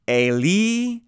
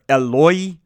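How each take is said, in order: First: The word is pronounced without the 'o' sound: Eli. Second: The word is pronounced with an 'o' sound: Eloi. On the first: This is the Hebrew form of the word. "just with the more Hebrew pronunciation" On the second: This is the Aramaic form of the word. "Mark's account apparently uses some Aramaic pronunciation here"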